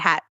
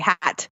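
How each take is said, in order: First: The final T is dropped or swallowed. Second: The final T is clearly pronounced. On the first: "We say hat" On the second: "we don't say hat with the T. We don't say hat"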